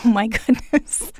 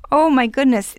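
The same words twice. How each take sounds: First: Said through a laugh; amused, chuckling reaction. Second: Louder, higher amazed exclamation; astonished, rising to a cry; surprised. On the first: Host reacts to the marijuana story. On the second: Host repeats in astonishment. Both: Real, not acted.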